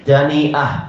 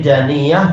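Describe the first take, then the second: First: A glottal stop comes before the final vowel. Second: The y sound is doubled, with no glottal stop.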